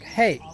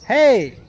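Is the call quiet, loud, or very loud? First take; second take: quiet; loud. First: It is called out at normal, quiet volume. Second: It is called out more strongly and louder.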